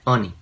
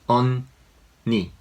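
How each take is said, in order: First: The two syllables are run together. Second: The two syllables are said clearly separate. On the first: The speaker calls it wrong. "not 언니" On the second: The speaker calls it right. "pronounce it as a two different syllables like 언니"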